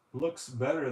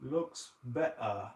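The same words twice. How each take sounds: First: Said in the usual way. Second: Slow, tentative British accent attempt. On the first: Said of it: "if I try to say it in a British accent". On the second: Shown as a demonstration. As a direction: try it slowly with a British accent. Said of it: "try to say it in a British accent".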